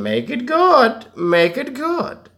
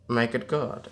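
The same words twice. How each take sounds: First: Much higher, slow and drawn out; high slow drawl. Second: Said in the usual way. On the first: Pretend. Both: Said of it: "repeat contrast".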